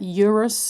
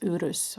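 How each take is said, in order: First: It is pronounced the English way. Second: It is pronounced the Norwegian way. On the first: "you would pronounce that Eurus, I get guess in English" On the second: "In Norwegian is Urus"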